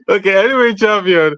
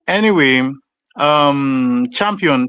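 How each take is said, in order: First: It is said with lively excitement. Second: It is said in a flat tone.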